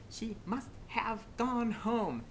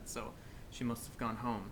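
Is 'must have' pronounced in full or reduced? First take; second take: full; reduced. First: Must have is pronounced fully and carefully. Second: Must have is reduced, as in fast speech. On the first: The speaker calls it wrong. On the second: The speaker calls it right.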